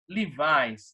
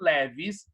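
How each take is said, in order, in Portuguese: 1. É pronunciada do jeito inglês. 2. É pronunciada do jeito do português brasileiro. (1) "em inglês" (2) "A gente conhece aqui no Brasil como"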